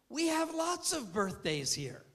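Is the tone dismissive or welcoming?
welcoming. It is said in a warm, welcoming tone.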